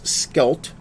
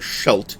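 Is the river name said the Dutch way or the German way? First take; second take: Dutch; German. First: The name is said the Dutch way. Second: The name is said the German way. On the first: The speaker calls it right. "it is Skelt uh, because it's Dutch and not German" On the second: The speaker calls it wrong. "pronouncing the river uh, as the Scheldt"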